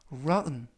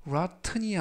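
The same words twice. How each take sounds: First: Rotten with the T nearly silent, like ra-un; right pronunciation. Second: Rotten이 said with a full clear T, the wrong way; the spelled-out rotten with a crisp T; wrong pronunciation. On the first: Teacher shows students the correct rotten, T swallowed. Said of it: "이 아니라 rotten". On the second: Teacher shows students the wrong rotten, T fully sounded. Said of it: "rotten이 아니라". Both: Shown as a demonstration.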